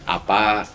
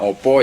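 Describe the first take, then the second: First: The vowels are pronounced as a sounds. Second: The vowels are pronounced as o sounds. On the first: This is the form Tengger people use. "pakainya A" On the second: This is the form other Javanese speakers use. "Jadi nggak pakai O"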